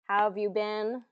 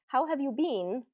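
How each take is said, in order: First: The word 'been' is said like 'bin'. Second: The word 'been' is said like 'bean'. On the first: The speaker calls it right. "It's more pronounced B I N" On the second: The speaker calls it wrong. "it's very uncommon"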